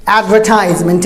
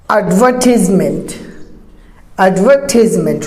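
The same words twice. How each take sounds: First: Advertisement as ad-ver-TIES-ment; long "ties" in advertisement. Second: Advertisement as ad-VER-tis-ment; British advertisement, falling, carefully shown; British pronunciation. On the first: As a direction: say advertisement with an I sound. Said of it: "Pakistanis and Indians say". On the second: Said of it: "British is". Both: Shown as a demonstration.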